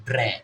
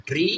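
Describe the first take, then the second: First: "ড্রে" with an e vowel; DRE read as "dre". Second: "ড্রি" with an ee vowel; DRE read as "dri". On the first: Teacher shows second reading of DRE, e sound in "ড্রে". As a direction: say "ড্রে", ending in a short e. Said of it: "D আর ই কি হবে?". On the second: Teacher shows first reading of DRE, ee sound in "ড্রি". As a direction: say "ড্রি", rising, ending in ee. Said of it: "ই এর জন্য হবে ড্রি". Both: Shown as a demonstration.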